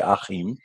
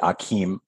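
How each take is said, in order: First: The name is said with a German pronunciation. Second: The name is said with an American pronunciation. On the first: The speaker calls it right. "coming to Deutschland where I can say Achim" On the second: The speaker calls it wrong. "Americans say Achim, which is very weird"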